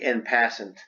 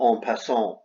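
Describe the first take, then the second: First: It is pronounced with an English accent. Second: It is pronounced with a French accent. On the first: "In English, it would be en passant" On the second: "it's French, that's the correct pronunciation"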